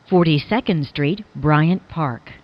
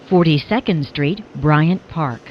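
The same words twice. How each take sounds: The two takes are said the same way.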